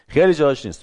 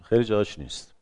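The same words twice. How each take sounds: First: خیلی hit higher and louder; stress on خیلی. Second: Said in the usual way. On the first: Shown as a demonstration. Lecturer repeating a point, stressing خیلی. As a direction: lean hard into خیلی, then let جاهاش نیست fall.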